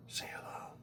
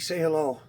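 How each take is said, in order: First: Hushed whisper to a cat; whispered coaxing. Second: Said in the usual way. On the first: Real, not acted.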